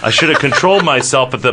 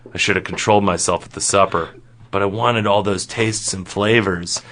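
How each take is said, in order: First: Quick, livelier self-scolding; animated regret. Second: Quick, low-key admission; subdued regret. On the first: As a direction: scold yourself briskly, then break off. First take, broken off by interruption. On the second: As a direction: own up in a low, understated voice. Retake of the line after interruption. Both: Acted.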